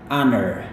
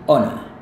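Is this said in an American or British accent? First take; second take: American; British. First: It is said with an American accent. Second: It is said with a British accent. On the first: "kalau gaya Amerika" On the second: "gaya British ... mereka pakai O yang pendek"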